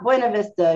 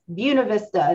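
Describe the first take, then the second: First: The name has a different, non-local pronunciation. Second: The name has the local Winston-Salem pronunciation. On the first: The speaker calls it wrong. "not Buena Vista" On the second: The speaker calls it right. "If you live in Winston-Salem, it is Buena Vista, even if it hurts your ears"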